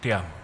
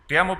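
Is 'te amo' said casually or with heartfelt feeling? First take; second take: heartfelt; casual. First: It is said warmly, with deep feeling. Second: It is said offhandedly, without real feeling. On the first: The words are sincerely meant. "Con un sentimiento" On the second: The words are said without real commitment. "simplemente algo soltado y muy superficial"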